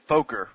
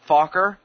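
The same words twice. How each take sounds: First: The name rhymes with poker, with a long o. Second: The name does not rhyme with poker. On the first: This is how the family says its name. The speaker calls it right. "they rhyme it with poker" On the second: This is not how the family says its name. The speaker calls it wrong. "not Fokker"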